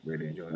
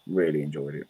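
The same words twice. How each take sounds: First: Much softer, fading repeat; trailing off quietly. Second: Said in the usual way. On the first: Real, not acted. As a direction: let it fade to almost nothing. Repeats the phrase, fading away.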